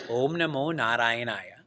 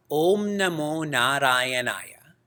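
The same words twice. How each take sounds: First: Said in the usual way. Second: Each syllable drawn out slowly; slow mantra demo. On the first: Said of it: "the mantra Om Namo Narayanaya". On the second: Shown as a demonstration. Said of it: "the mantra".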